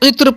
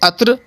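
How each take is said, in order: First: It starts with 'i' and ends in 'tr'. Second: It starts with 'a' and ends in 'tr'. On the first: The speaker calls it right. "उसे इत्र पढ़ना चाहिए" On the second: The speaker calls it wrong. "सब के सब गलत हैं"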